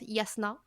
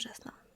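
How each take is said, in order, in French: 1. Le nom commence par un son Y. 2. Le nom commence par un son J. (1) "apparemment ça se prononce Yasna" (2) "Je préfère Jasna"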